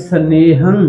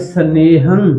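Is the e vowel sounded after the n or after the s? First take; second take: after n; after n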